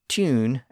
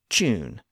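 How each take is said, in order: First: The word begins with a plain T sound. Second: The word begins with a CH-like sound.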